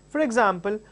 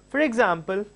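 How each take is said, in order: No difference in how they are said.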